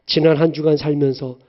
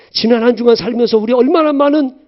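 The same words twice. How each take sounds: First: Said in the usual way. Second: 얼마나 stressed, louder and higher; pressing rhetorical emphasis; emphatic repeat. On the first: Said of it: "repeated with emphasis". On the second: Shown as a demonstration. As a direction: lean hard into 얼마나. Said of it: "repeated louder".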